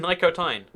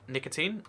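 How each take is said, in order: First: The last syllable sounds like 'sign'. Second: The last syllable sounds like 'teen'. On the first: The speaker calls it right. "It's definitely Nicotine. ... Nico. ... Tine. Like the opposite of sign" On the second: The speaker calls it wrong. "most people pronounce my username like nicotine"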